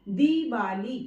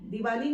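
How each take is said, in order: First: The first vowel is long and emphasized. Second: The first vowel is short. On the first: The speaker calls it right. "दी पर ज्यादा जोर देकर हम बोल रहे हैं" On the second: The speaker calls it wrong. "दिवाली नहीं होता है"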